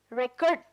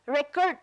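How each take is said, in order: First: ReCORD, second syllable punched loud; "record" stressed on its final syllable. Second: RECord, first syllable punched; "record" stressed on its opening syllable. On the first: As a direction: hit CORD in "record", as the verb. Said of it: "kurt polong le nitum si stress ajur chipi mu". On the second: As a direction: hit REC in "record", as the noun. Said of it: "pula first syllable along le nitum ajur chipi muchot". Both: Shown as a demonstration.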